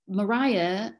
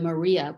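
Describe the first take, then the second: First: The name is said the older English way. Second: The name is said the continental way. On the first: This is how the name was said in that period. "Mariah was the pronunciation until after the Napoleonic Wars" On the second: This is the later pronunciation picked up abroad. "they were exposed to the Maria pronunciation"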